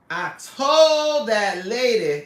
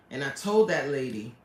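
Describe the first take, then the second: First: Slow, drawn-out, louder mock wail; milk it like a put-upon diva; hammed-up complaining repeat; whiny dramatic wail. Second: Said in the usual way. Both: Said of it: "repeats line in new voice".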